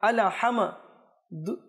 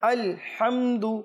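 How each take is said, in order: First: An extra vowel follows the L and M sounds. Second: No extra vowel follows the L and M sounds. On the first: The speaker calls it wrong. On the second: The speaker calls it right.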